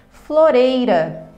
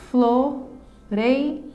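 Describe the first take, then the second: First: Said in the usual way. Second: "Floreira" in three slow beats: flo, rei, ra; syllable by syllable. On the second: Shown as a demonstration. Teacher showing a three-syllable word, syllable by syllable. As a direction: pause after each syllable of "Floreira". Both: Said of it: "trissílaba".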